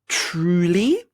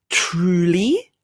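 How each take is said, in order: No difference in how they are said.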